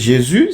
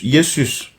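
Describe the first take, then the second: First: The name begins with a J sound. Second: The name begins with a Y sound. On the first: This is the later French form of the name. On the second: This is the older Latin form of the name.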